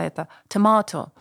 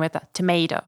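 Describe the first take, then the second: First: It is said with a British accent. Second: It is said with an American accent.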